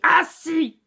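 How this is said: The word is shouted loudly. The speaker calls it wrong. "il faut pas non plus crier assis. Si vous criez comme ça"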